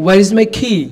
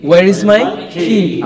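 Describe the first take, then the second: First: Said in the usual way. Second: Where is my key said very slowly; each word drawn out for pupils; slow model. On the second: Shown as a demonstration.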